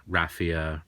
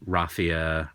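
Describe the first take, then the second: First: RAFF-ee-uh, short a as in cat; raffia with flat a. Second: RAH-fee-uh, open ah vowel; unsure pronunciation; raffia with broad a. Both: Shown as a demonstration. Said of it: "I never know how to say it".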